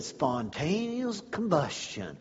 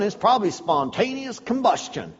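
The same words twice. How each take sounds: First: Awed repeat. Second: Said in the usual way. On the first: Retold or imitated. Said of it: "And I said". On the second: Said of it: "He looked down at me and said".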